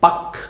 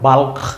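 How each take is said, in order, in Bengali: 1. K-এর আগে L ধ্বনিটি নীরব থাকে। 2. K-এর আগে L ধ্বনিটি উচ্চারিত হয়। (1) "কথা কিন্তু হচ্ছে বাক" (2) "মনে হয় বাল্ক, কিন্তু না"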